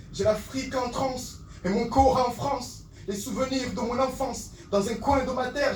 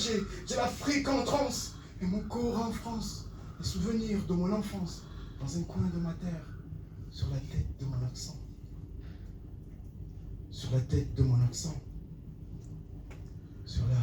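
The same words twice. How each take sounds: First: Impassioned slam refrain. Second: Softer echo sinking in pitch; fading slam refrain. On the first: Poet torn between Africa and France, impassioned slam. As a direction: ring the verse out with fervour. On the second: Poet repeats his refrain about homeland, fading slam. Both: Acted.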